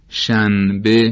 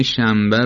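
First: شنبه said slowly as "shan-be", with a clear n; pronounced as written. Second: شنبه said as "shambe", the ن turned into m; pronounced with m. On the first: Teacher shows the written form, شنبه as careful "shan-be". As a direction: split شنبه into shan and be, keeping the ن. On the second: Teacher shows everyday Persian pronunciation, شنبه as "shambe". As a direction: close the lips early in شنبه, an m before the b. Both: Shown as a demonstration.

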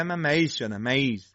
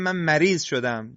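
First: "مریض" with a loose, swallowed r, near "مَییض"; hollow r. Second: Said in the usual way. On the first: Shown as a demonstration. Teacher imitating those who say raa wrongly, hollow r in "مریض". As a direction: let the r of "مریض" go without tongue contact. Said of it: "این را جوفیه".

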